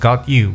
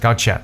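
First: The two words are said separately as 'got you'. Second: The words blend into one word, 'gotcha'. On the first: The speaker calls it wrong. "不要读成got you" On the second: The speaker calls it right. "乖乖的gotcha"

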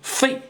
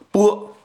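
First: The syllable is pronounced fei. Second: The syllable is pronounced bo. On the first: "有人说读成费" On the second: "有人说读成波啊"

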